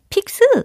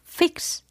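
First: It starts with a p sound and ends in a vowel. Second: It starts with an f sound and ends in x. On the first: The speaker calls it wrong. "픽스 아니고" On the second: The speaker calls it right. "아니고 fix"

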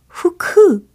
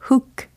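First: Two syllables, with an added vowel after k. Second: One English syllable with a lax vowel. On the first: The speaker calls it wrong. "후크 아니고요" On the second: The speaker calls it right. "hook 이렇게 하신다고요"

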